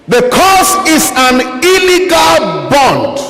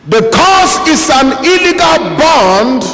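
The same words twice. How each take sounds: No difference in how they are said.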